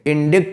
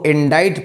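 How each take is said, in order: First: It ends like 'dikt' with a k sound. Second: It ends like 'dite' with no k sound. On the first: The speaker calls it wrong. "इंडिक्ट नहीं पढ़ेंगे" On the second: The speaker calls it right. "इंडाइट पढ़ेंगे"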